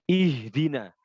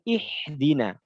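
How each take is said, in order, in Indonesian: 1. Konsonan tengahnya h yang halus dan berdesah. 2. Konsonan tengahnya kh yang kasar. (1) "Hak dibaca ha ya" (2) "Jangan sampai hak dibaca kho"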